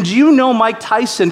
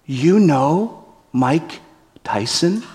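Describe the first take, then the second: First: Delighted retelling. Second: Slow, wide-eyed and earnest; sincere innocent question. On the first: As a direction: savour the absurd line. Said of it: "And his question". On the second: Brian asking the threatening guards, slow and sincere. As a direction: ask it with total innocence. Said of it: "With sincerity in his eyes". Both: Retold or imitated.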